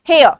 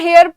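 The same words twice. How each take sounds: First: The final r sound is swallowed and silent. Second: The final r sound is clearly pronounced. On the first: The speaker calls it right. "आर को silent कर दो" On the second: The speaker calls it wrong. "कुछ लोग होंगे ऐसे जो इसको हेयर pronounce करते होंगे"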